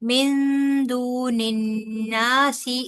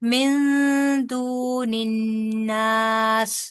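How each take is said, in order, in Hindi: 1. आखिरी शब्द एक छोटे स्वर पर खत्म होता है। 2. आखिरी शब्द एक सादे व्यंजन पर खत्म होता है। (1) "ऐसे करके छोड़ा" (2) "अगर आपने यहाँ रुकना है ना तो फिर आप करेंगी"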